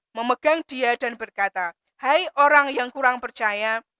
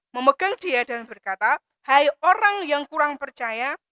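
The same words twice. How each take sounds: The two takes are said the same way.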